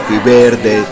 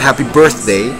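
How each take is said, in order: First: It is said with a Spanish accent. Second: It is said with an English accent. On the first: "que la gente canta acá" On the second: "no es en inglés que es"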